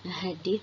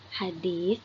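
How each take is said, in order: First: The final consonant is a plain s sound. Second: The final consonant is a soft th sound. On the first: "dalam bahasa Indonesia"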